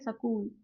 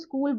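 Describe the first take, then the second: First: The word is said in a Haryanvi accent. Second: The word is said in a standard Hindi accent. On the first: "अगर हम Haryanvi accent की बात करें तो इसको कैसे बोलेंगे" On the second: "अगर हम इसे नॉर्मल बोलेंगे हिंदी में"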